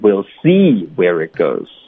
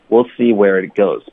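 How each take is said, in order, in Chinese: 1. see 这个词要重读。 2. see 这个词不用重读。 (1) "不用" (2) "see 不要加重音。"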